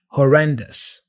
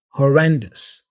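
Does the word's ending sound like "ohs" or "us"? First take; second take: us; us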